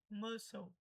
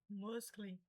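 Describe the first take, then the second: First: The word is said the usual English way. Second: The word is sounded out as it is spelled. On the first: The reader has heard the word. The speaker calls it right. "A pronúncia correta é muscle" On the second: The reader has never heard the word. The speaker calls it wrong. "se você nunca ouviu, seria falar algo como muscly"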